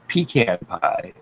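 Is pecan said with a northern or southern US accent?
northern. Pecan is said the northern US way.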